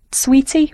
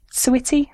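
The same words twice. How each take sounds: First: "Sweetie" drawn out slowly as a first try; first pronunciation guess. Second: "Sweetie" as a second, different reading; alternative pronunciation guess. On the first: Presenter reading out a tweeter's name, "Sweetie" as a slow first guess. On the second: Presenter unsure of a tweeter's name, "Sweetie" as the alternative guess. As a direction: try "Sweetie" the other way, a little less drawn out. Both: Real, not acted. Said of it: "not sure how you pronounce that".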